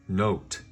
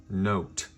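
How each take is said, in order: The two takes are said the same way.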